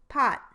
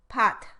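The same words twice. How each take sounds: First: The final t is held and never released. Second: The final t is released with a puff. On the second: "it's unusual to produce an aspirated stop in the syllable coda like this"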